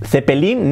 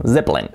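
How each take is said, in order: First: "Zeppelin" as the-pe-LIN; Spanish th and three full syllables in "Zeppelin"; wrong Spanish pronunciation. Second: "Zeppelin" as ZEP-lin; buzzed Z, no middle E in "Zeppelin"; correct English pronunciation. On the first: Teacher showing the version to reject, hispanicized. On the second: Teacher correcting the Spanish version, English pronunciation. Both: Shown as a demonstration. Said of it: "no, Zeppelin".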